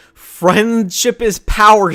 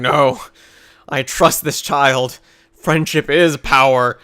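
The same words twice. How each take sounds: First: Slow, drawn-out mock slogan; sarcastic anime slogan, dragged out. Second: Slow, solemn mock sincerity; slow, solemn mock conviction; mock solemn villain. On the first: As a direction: sneer out the cheesy catchphrase slowly. Mocking Naruto's cheesy speech. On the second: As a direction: intone it like a convert reciting a creed. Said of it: "he's like".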